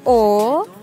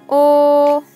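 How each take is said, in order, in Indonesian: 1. Diucapkan dengan nada ketiga yang turun lalu naik. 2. Diucapkan dengan nada pertama yang datar. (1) "Bentuk ketiga" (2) "bentuk pertama"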